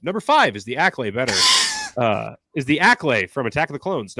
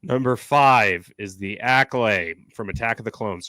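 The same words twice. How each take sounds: First: A clearer, more careful read of Acklay; cleaner retake. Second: Said in the usual way. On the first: Shown as a demonstration. Redoing the line for the clip, clearer read. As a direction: say it again better for the clip. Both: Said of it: "I should say this better for the clip".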